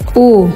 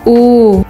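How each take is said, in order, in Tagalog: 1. Saglit lang binibigkas ang patinig. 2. Mas matagal binibigkas ang patinig. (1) "Pag short" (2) "Pag long"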